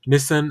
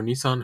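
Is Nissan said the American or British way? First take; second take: British; American. First: Nissan is said in a British way. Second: Nissan is said in a plain American way. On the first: "Orlando Bloom pr- pronounces it as Nissan" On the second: "I've been saying it wrong all my whole life"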